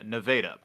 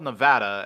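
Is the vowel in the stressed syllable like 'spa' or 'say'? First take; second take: say; spa. First: The stressed vowel sounds like the 'a' in 'say'. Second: The stressed vowel sounds like the 'a' in 'spa'. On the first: This is the name of the Missouri city. "pronounced with a hard A sound on the first A" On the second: This is the name of the western state. "spelled Nevada, as in the state Las Vegas is in"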